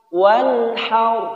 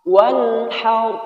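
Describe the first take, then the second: The two takes are said the same way.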